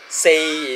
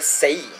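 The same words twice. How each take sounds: First: It is said with the tone of 'four'. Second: It is said with the tone of 'die'. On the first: It means the number four. "is the proper pronunciation of four in Cantonese" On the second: It means to die. "you tweak it a bit with the intonation, you get say. Say means die"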